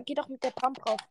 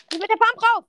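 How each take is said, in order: First: Said in the usual way. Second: Higher, louder command; frustrated teammate shouting instructions; urgent shout. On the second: Real, not acted. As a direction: yell the order at your teammate. Urging teammate to push.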